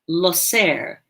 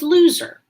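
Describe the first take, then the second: First: It is said with a Spanish-style pronunciation. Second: It sounds like the English word loser. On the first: It is how the player's name is really said. The speaker calls it right. "that's not the way you say the, the name. It's Loser" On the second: It is the misreading from the jersey. The speaker calls it wrong. "at a first glance, you would think this guy's name was Loser"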